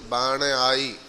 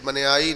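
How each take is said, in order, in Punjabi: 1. ਦੋਵੇਂ ਸ਼ਬਦ ਵੱਖ-ਵੱਖ ਰੱਖੇ ਜਾਂਦੇ ਹਨ। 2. ਦੋਵੇਂ ਸ਼ਬਦ ਮਿਲ ਕੇ ਇੱਕ ਬਣ ਜਾਂਦੇ ਹਨ। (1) "ਬਣ ਆਈ, ਇਹ ਧਿਆਨ ਦੇਣਾ" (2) "ਬਣਿਆਈ ਨਹੀਂ"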